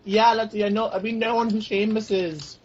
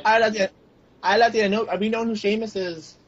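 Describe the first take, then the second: First: Put-on a slower, higher, clumsy Irish accent; bad Irish accent. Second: Put-on Irish accent. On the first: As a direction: lay on a poor Irish brogue. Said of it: "were you trying to do an Irish accent?". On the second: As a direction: try a light Irish lilt. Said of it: "an Irish accent?".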